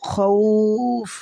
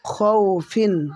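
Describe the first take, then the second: First: The word ends on a bare f, vowel lengthened. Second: The word ends with an -in sound. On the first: The reader stops here. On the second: The reader does not stop here.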